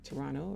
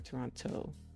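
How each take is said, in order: First: The second t is dropped, leaving an n sound. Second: The second t is clearly pronounced. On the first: "do you say it like with an N" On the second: "do you really pronounce that T"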